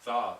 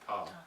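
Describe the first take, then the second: First: It starts with an English th sound. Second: It starts with a t and a puff of air. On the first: The speaker calls it wrong. "that would not be th, tha" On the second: The speaker calls it right. "it would be ta"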